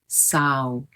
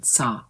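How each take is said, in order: First: The vowel closes toward a rounded 'oh' sound. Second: The vowel stays open without closing at the end. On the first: The speaker calls it wrong. "he makes the mistake of closing his mouth" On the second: The speaker calls it right. "leave the mouth open"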